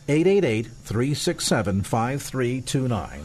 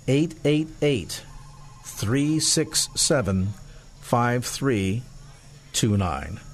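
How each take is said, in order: First: The number is read quickly. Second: The number is read slowly.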